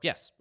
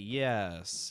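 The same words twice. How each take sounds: First: The word is said very quickly. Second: The word is drawn out very slowly. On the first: "or very quick" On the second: "they could say it very slowly"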